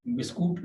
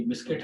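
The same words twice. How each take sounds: First: बिस्कुट said bis-kut with a u sound; the mistaken बिस्कुट, ending in kut; wrong pronunciation. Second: बिस्किट said bis-kit with a short i, pitched higher; the right बिस्किट, ending in kit, lifted up; correct pronunciation. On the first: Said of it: "बिस्कुट नहीं पढ़ते". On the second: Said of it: "ये बिस्किट पढ़ते हैं". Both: Shown as a demonstration.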